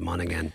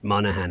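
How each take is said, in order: First: The G in the middle is pronounced. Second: The G in the middle is silent. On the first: The speaker calls it wrong. "as opposed to" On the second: The speaker calls it right. "I actually put that G in little brackets"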